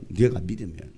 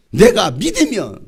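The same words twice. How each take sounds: First: Low, soft repeat; quiet echo. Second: Loud, drawn-out delivery; forceful call. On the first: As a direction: drop low and say it softly. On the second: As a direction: declare it loudly and slowly. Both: Acted. Same words loud, then low.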